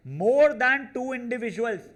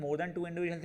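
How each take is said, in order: First: High, loud, drawn-out announcement of the phrase; punched-up, raised voice, stretched words; loud emphatic reading. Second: Said in the usual way. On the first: Shown as a demonstration. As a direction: read the key phrase out big, slow and high. Reads key phrase out emphatically.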